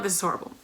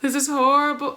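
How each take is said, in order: First: Horrible dropped low and soft; flat, quiet. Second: Horrible said with raised, bigger emphasis; dramatic horror. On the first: Correcting herself to viewers, quiet deflated take. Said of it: "let me make this make sense". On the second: Correcting herself to viewers, raised dramatic take. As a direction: play it up as a crisis. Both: Shown as a demonstration.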